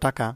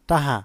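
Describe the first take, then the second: First: It is said in the standard pronunciation. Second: It is said in a regional dialect pronunciation. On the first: "প্রমিত উচ্চারণ" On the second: "আঞ্চলিক শব্দ"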